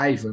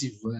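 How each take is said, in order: First: The name is pronounced the English way. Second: The name is pronounced the Portuguese way. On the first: It adapts the name so locals understand it. "depois de uma ter, terceira e quarta vez, eu comecei a falar Aiva" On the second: It keeps the name's original form. "Não falava mais Ivan"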